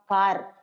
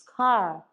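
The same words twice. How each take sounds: First: The final r sound is pronounced. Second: The final r sound is silent. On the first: The speaker calls it wrong. "it's not car" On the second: The speaker calls it right. "R అనేది వినిపించనే వినిపించదు"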